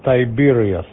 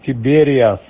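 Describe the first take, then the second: First: The first syllable sounds like 'tie'. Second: The first syllable sounds like 'tee'. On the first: This is how the name is actually pronounced. "а произносится Тайбериас" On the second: This is how the name is spelled. "это так пишется"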